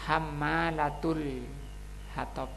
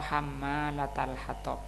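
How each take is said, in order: First: The vowel after the t is u. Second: The vowel after the t is a. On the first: The phrase is read in the nominative case. "Bisa dibaca dhamma di taknya ini" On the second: The phrase is read in the accusative case. "dan juga bisa dibaca fathah"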